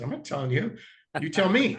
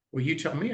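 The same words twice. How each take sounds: First: YOU pitched up high in "You tell me"; "You tell me" as a higher-pitched comeback; teasing retort. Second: Said in the usual way. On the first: Retold or imitated. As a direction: toss it back with weight on "You". Throws client's question back, laughter follows.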